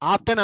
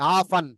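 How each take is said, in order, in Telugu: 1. ఈ పదాన్ని t శబ్దంతో పలుకుతారు. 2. ఈ పదాన్ని t శబ్దం లేకుండా పలుకుతారు. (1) "ఆఫ్టన్ అనకూడదు" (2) "టీ సైలెంట్"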